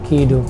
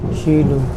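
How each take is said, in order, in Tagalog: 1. Nagsisimula ang pangalan sa tunog na K. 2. Nagsisimula ang pangalan sa tunog na SH. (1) "hindi siya Kido" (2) "Sa sa train is pag-pronounce is Shido"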